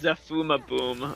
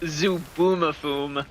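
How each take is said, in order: First: The middle syllable starts with an F sound. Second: The middle syllable starts with a B sound. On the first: The speaker calls it wrong. "I was saying it Zafuma Boom or so, no" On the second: The speaker calls it right. "The show is pronounced Zubumafum"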